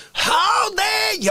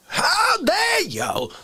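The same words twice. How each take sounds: First: High, slow shouted outrage; drawn-out mock fury; over-the-top indignant yell; How Dare You guy. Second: High, slow outraged shriek; hammed-up indignant cry; How Dare You guy. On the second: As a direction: stretch it out in mock fury. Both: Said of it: "How Dare You Drag Racer".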